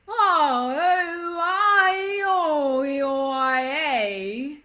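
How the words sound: The vowels are long and smoothly joined.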